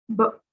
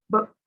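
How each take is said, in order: The two takes are said the same way.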